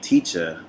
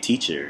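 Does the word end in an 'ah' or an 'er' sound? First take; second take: ah; er. First: The word ends in an open 'ah' sound. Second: The word ends in an 'er' sound with r. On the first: "instead of saying teacher" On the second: "I'm starting to revert back to er"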